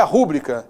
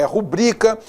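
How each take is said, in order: First: "rúbrica" stressed on the first syllable RÚ; front-stress "rúbrica"; wrong stress. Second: "rubrica" stressed on BRI; correct stress. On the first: Teacher showing the mistake, rúbrica stressed on RÚ. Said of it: "Não é rúbrica". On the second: Teacher correcting to rubrica, stress on BRI. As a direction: hit the middle syllable of "rubrica". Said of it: "é rubrica". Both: Shown as a demonstration.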